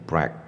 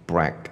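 First: It begins with an R-like sound. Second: It begins with an R-like sound.

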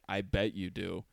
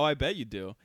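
First: It is said in an imitated, put-on voice. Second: It is said in the speaker's natural voice. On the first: "in your voice" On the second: "I could say something in my voice"

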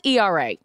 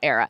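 First: It is said as separate letters. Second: It is said as one word. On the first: The speaker calls it right. "it's ERA" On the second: The speaker calls it wrong. "It's not era"

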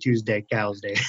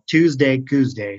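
First: The middle word rhymes with 'cows'. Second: The middle word rhymes with 'coos'. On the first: The speaker calls it wrong. "wouldn't sound right if we were saying Tuesday Cows Day" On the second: The speaker calls it right. "all of our social media sites down here have a thing called Tuesday Coos Day"

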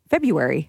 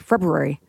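First: The R after the B is dropped. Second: The R after the B is pronounced, quickly. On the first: "I ignore the R and I'm just February" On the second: "There are the people who do say it. ... they kind of say it quickly"

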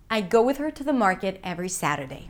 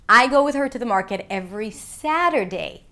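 First: No single word carries any special stress. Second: The word 'Saturday' carries the main stress. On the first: "And again, neutral intonation" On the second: "not Sunday"

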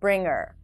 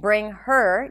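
First: The h sound in 'her' is dropped. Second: The h sound in 'her' is pronounced. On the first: "you can say bring her along" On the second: "Instead of saying bring her"

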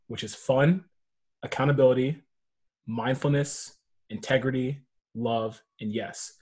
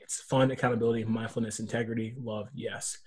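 First: The list is said slowly. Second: The list is said quickly.

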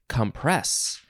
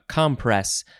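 First: The stress is on the second syllable. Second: The stress is on the first syllable. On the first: It is the verb form. "in the last episode, it was compress" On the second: It is the noun form. "We are emphasizing the first syllable this time"

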